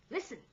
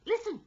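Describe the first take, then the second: First: Raised-pitch command; ordering. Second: Very high, loud command; forceful order. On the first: Second mate to the crew, ordering. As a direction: order them to hush. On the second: Second mate to the crew, forceful order. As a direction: order it urgently at full voice. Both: A narrator's reading. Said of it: "ordered the mate".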